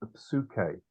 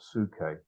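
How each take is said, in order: First: The initial P is clearly pronounced. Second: The initial P is silent. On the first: The speaker calls it right. "psuke, not suke" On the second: The speaker calls it wrong. "not suke"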